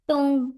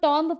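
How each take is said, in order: First: The word ends without any b sound. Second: The word ends with an audible b sound. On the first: The speaker calls it right. "बी silent रहता है, इसको टूम पढ़ते हैं।" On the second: The speaker calls it wrong. "किसको किसको लगता है कि इसको टॉम्ब पढ़ते हैं?"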